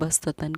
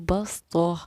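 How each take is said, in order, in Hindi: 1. इस शब्द के अंत में t और n की आवाज़ है। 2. यह शब्द एक साइलेंट h की आवाज़ पर खत्म होता है।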